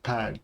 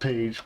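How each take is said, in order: First: The vowel is short, like in 'badge'. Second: The vowel is long, like in 'page'. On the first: The speaker calls it right. "but pag" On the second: The speaker calls it wrong. "So not page"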